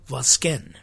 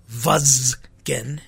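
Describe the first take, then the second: First: The stress is on the last syllable. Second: The stress is on the first syllable. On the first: The speaker calls it right. "all Armenian words have their accent on the last syllable" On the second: The speaker calls it wrong. "So it's not Vazgen"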